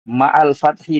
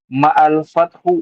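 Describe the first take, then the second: First: The last word ends in an i vowel. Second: The last word ends in another vowel. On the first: The word 'with' works as an adverb of place. "di kasrah boleh" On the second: The word 'with' is quoted as part of a title. "Kalau dibaca ma'al fathu boleh juga"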